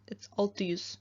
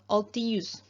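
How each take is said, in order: First: The vowel is short, like a schwa. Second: The vowel is long. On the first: The speaker calls it right. "It's like a short E" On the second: The speaker calls it wrong. "this is not a long E, so it's not"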